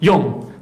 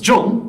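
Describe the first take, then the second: First: The name begins with a Y sound. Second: The name begins with a J sound. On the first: The speaker calls it right. "the correct pronunciation is Young" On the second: The speaker calls it wrong. "often mispronounced as John by many people"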